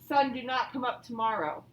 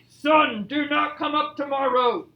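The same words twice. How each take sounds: First: It is said at a quiet, ordinary volume. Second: It is said very loudly, like a shout. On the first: "That doesn't sound very loud" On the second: "as loud as I could"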